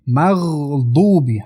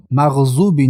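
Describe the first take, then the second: First: Slow مغضوبی with held gh and thick emphatic d; correct heavy dad. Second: Quick مغضوبی with z in place of dad; mistaken z sound. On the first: Teacher modelling correct مغضوبی, slow with heavy dad. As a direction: press a full, dark dad into مغضوبی. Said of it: "حرف داد". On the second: Teacher demonstrating wrong مغضوبی, z for dad. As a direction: say مغضوبی as maghzubi, with a z. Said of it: "مغضوبی نه". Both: Shown as a demonstration.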